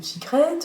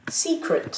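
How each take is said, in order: First: "secret" rising onto the last syllable; French-style final stress. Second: "Secret" with a high first syllable, falling after; stress on first syllable. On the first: Retold or imitated. Teacher imitating francophone students, "secret" wrongly stressed on the last syllable. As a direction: put the weight on the end of "secret", as in French. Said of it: "les francophones ont tendance à dire".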